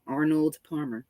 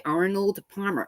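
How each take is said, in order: First: "Arnold Palmer" said slowly, pitched lower; slow, deliberate "Arnold Palmer"; very slow, careful. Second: Said in the usual way. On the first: Shown as a demonstration. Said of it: "I have to say it very slow". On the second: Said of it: "can never say Arnold Palmer".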